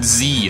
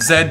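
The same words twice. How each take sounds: First: The letter is pronounced zee, rhyming with see. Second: The letter is pronounced zed, rhyming with bed. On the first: The speaker calls it wrong. "why do you pronounce it Z? It, it sounds like the letter C" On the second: The speaker calls it right. "because I'm Canadian, so screw off, that, that's how we pronounce it"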